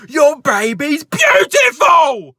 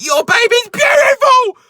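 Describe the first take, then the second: First: Much higher and louder, slow furious yell; angry shouted compliment. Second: Much higher and louder, slow, all-out scream; angry scream. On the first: Shoplifter yells at the dad about his baby, furious shout. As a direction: bellow the compliment like an insult. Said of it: "giving compliments while shouting". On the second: Shoplifter screams at the dad in the store, furious scream. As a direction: scream the compliment in rage. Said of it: "in such an angry tone". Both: Retold or imitated.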